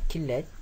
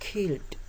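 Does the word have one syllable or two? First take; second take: two; one. First: The ending adds a vowel, two syllables. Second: The ending is a bare d, one syllable. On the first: The speaker calls it wrong. "bukan killed" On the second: The speaker calls it right. "keduanya killed"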